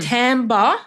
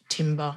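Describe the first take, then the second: First: The first syllable sounds like 'tam'. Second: The first syllable sounds like 'tim'. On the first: The speaker calls it right. "Timbre, referring to the tone or quality of an instrument or voice" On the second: The speaker calls it wrong. "not timber as it's written"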